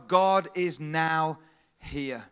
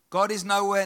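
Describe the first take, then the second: First: The last part is split into two words. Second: The last part runs together as one word. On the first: God is present right now. "Just put a little gap in between the W and the H" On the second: God is absent everywhere.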